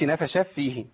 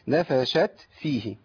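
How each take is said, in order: First: The final t is merged into the next sound. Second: The final t is sounded clearly before the next word. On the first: The speaker calls it wrong. "ما اقولش نفش فيه، ... انا عملت ايه؟ اضغام" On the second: The speaker calls it right. "اقول ايه؟"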